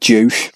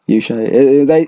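First: The word begins with a J sound. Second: The word begins with a Y sound. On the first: This is the speaker's habitual pronunciation. The speaker calls it wrong. "I pronounce it Juche" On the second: This is the reportedly correct pronunciation. The speaker calls it right. "but it's apparently Yushe calendar"

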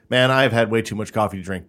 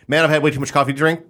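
First: It is said at a normal pace. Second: It is said very fast and wired.

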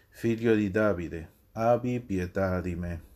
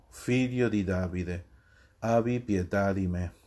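Both takes have the same delivery.

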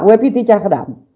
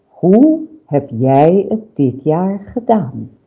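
First: The question is spoken quickly and casually. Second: The question is spoken slowly and deliberately. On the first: The role does not come across convincingly. The speaker calls it wrong. "Want een Sinterklaas die zegt, nou" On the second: The speaker takes on a calm, storytelling role. The speaker calls it right. "als je je voorstelt dat je Sinterklaas bent"

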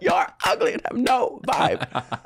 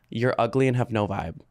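First: It is said loudly, with raised volume. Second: It is said at a normal speaking volume.

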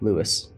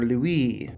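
First: The name is said with an English pronunciation. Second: The name is said with a French pronunciation.

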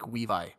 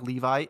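First: The word begins with a W sound. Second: The word begins with a clear L sound. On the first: "it would be, like, Weevi" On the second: "If she was saying, like, Levi"

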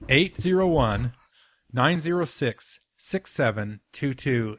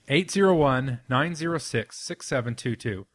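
First: The number is said at a slow pace. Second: The number is said at a quick pace.

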